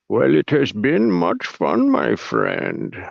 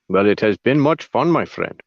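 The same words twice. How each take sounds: First: It is said slowly and clearly enunciated. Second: It is said at normal speed.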